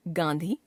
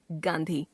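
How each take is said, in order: First: गांधी as गाँधी, nasalised vowel, rising; wrong pronunciation. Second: Said in the usual way. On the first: Shown as a demonstration. Teacher showing a common error, गांधी as गाँधी. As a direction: nasalise गा in गांधी instead of full n. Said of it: "अशुद्ध". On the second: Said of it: "शुद्ध".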